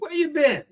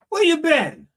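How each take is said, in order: First: It sounds like a casual, friendly greeting. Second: It sounds urgent, like after a long search.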